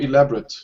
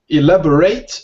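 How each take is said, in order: First: The ending is said the adjective way. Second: The ending is said the verb way. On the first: It describes something as detailed. "it's an adjective. So more elaborate. Slight different pronunciation at the end" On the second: It is an action word. "Elaborate is the verb"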